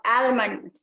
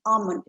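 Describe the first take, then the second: First: Almond as AL-mund, L sounded; flat 'al' starting almond; wrong pronunciation. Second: Almond as AH-mund, no L; almond with a long open 'ah'; silent L. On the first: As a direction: say almond with a clear L. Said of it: "It is not almond". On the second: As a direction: drop the L in almond. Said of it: "L is kind of silent there". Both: Shown as a demonstration.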